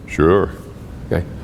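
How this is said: It is said in a dismissive, sarcastic tone. The speaker doesn't really believe it. "different inflection in the voice ... you're being sarcastic"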